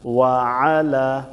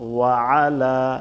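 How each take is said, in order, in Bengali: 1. গলার ব্যঞ্জনটি দুই শব্দের মাঝে থাকে। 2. গলার ব্যঞ্জনটি দুই শব্দের মাঝে থাকে।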